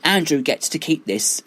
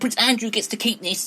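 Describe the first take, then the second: First: It is said in the speaker's normal voice. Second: It is said in a put-on accent.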